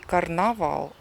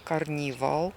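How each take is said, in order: First: The second vowel sounds like 'a'. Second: The second vowel sounds like 'ee'. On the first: The speaker calls it wrong. "Не карнавал" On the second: The speaker calls it right. "а карнівал"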